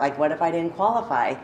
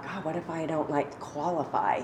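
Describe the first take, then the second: First: Said in the usual way. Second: Murmured worry, much softer; quiet inner thought. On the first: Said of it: "I remember, like". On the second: Retold or imitated. To herself, dreading intake, a soft worried murmur. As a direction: hush it like a private fearful thought. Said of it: "like, I thought".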